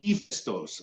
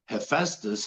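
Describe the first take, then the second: First: The name is said with a Greek pronunciation. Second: The name is said with an Anglicized pronunciation. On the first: The speaker calls it right. "oh, you mean Hephaestus?" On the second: The speaker calls it wrong. "I was pronouncing them, the names of the gods, the way I was taught in school"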